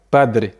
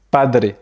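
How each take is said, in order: Both takes have the same delivery.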